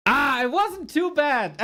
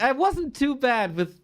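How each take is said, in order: First: Wasn't drawn out and high, pleased; "wasn't" stretched out, proud, slow; stress on wasn't. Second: Said in the usual way. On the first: Real, not acted.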